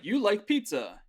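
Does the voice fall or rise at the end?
fall. The voice falls at the end. It is a statement.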